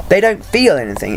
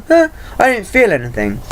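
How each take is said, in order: First: Said in the usual way. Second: Mock indifference. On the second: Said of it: "they'll go".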